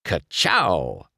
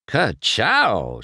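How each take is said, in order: First: Punchy race car catchphrase. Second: Admiring. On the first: Acted. McQueen admiring his fresh paint, punchy catchphrase. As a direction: fire it off like a signature. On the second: A narrator's reading. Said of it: "she said admiringly".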